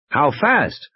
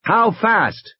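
First: Higher-pitched pressing question; lightly urgent "how fast?". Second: Much higher, insistent question; urgently demanding an answer; insistent repeat. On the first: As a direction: ask it as pressing for an answer. Grant questions Muldoon over the radio. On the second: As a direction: push the question harder, pitched high. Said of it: "Grant said again". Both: Acted.

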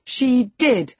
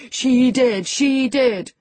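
First: High, loud, emphatic contradiction; crying out insistently. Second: High, loud singsong gloating; singsong taunt. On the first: Young lady contradicting her cousin, crying out. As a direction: insist hotly, pitch jumping up. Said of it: "cried my young lady". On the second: Boy enjoying his cousin's agitation, singing out tauntingly. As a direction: chant it to needle her. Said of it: "sang Linton". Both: A narrator's reading.

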